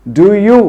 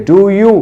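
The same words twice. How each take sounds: The two takes are said the same way.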